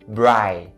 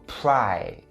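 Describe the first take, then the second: First: The syllable starts with a B sound. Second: The syllable starts with a P sound. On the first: The speaker calls it wrong. "don't ever turn it into a B sound and say bri. Bri is wrong" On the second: The speaker calls it right. "the first syllable starts with a P sound"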